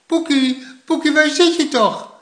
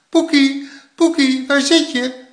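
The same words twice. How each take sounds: First: High, urgent call; worried calling out. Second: High, loud searching call; calling in chorus. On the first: Grandma searching the snow for Poekie, urgent calling. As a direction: call out for a missing child. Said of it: "riep oma". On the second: Both grandparents searching for Poekie, loud calling in chorus. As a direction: shout the name as if two call together. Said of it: "riepen ze beiden in koor". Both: A narrator's reading.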